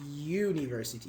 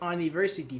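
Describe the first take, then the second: First: The word starts with a 'you' sound. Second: The word starts with a plain vowel sound. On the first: The speaker calls it right. "We say U" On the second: The speaker calls it wrong. "We don't say university"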